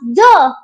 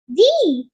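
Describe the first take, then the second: First: The vowel is a short 'uh' sound. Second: The vowel is a long 'ee' sound. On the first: The next word starts with a consonant sound. "when a word that starts with consonant sound, we will pronounce the" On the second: The next word starts with a vowel sound. "when a word that starts with a vowel sound, we will pronounce we will pronounce the"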